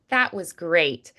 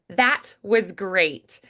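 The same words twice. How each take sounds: First: The T in 'that' is softened and glossed. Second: The T in 'that' is fully released. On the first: The speaker calls it right. "So I just do a softened T" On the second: The speaker calls it wrong. "That feels a little unnatural"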